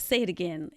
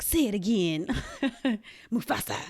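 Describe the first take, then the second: First: Said in the usual way. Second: Laughing quote. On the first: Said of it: "But of course". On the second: Retold or imitated. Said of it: "in Lion King where they're like".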